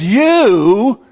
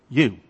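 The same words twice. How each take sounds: First: "You," hit loud and high; "You," thrown out as a loud high accusation; emphatic you. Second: Said in the usual way. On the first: Shown as a demonstration. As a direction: punch the word "You" hard and high. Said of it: "he uses an emphatic". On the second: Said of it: "it's like that".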